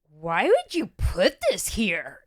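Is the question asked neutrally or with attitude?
with attitude. The question is asked with an accusing attitude.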